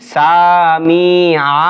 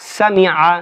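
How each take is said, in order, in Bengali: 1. স্বরধ্বনিগুলো টেনে দীর্ঘ করে বলা হয়। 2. স্বরধ্বনিগুলো ছোট ও দ্রুত বলা হয়। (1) "বলা যাবে না" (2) "এটা কি দীর্ঘ করে বলেছি?"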